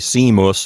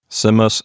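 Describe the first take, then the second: First: The i vowel is long. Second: The i vowel is short.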